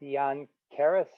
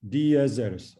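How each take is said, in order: First: "diankeres" stumbled with a k sound; hesitant "diankeres"; mispronounced attempt. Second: "Diazeres" said dee-ah-ZEH-res, clearly spelled out; corrected pronunciation. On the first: Student misreads word as "diankeres". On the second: Teacher correcting student, says "Diazeres" clearly. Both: Shown as a demonstration.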